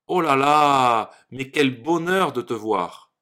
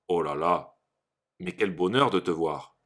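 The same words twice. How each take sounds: First: It is said with joyful, excited intonation. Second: It is said with flat, unexcited intonation. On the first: The speaker calls it right. "oh là là exprime la joie ou l'excitation. Écoutez bien comment je l'ai dit" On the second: The speaker calls it wrong. "Pour exprimer la joie, on ne pourra pas dire"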